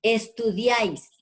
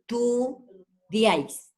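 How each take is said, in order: First: Said in the usual way. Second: "estudiáis" slowly broken into es, tu, diáis; syllable by syllable. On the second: Shown as a demonstration. Teacher counting syllables for the class, "estudiáis" split slowly as es-tu-diáis. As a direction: sound out "estudiáis" in three separated beats, slowly. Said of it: "Decimos ... Hay tres sílabas".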